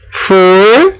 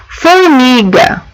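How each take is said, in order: First: Said in the usual way. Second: "Formiga" stretched slowly, syllable by syllable; sounding out syllables. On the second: Shown as a demonstration. Teacher sounds out "Formiga" slowly for her class. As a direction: draw out "Formiga" for the children to hear. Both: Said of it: "Ela percebeu só o O".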